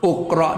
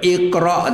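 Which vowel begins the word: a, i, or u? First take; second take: u; i. First: The word begins with a u vowel. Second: The word begins with an i vowel. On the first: The speaker calls it wrong. "uqra dak" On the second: The speaker calls it right. "Kalau itu baca iqra tu"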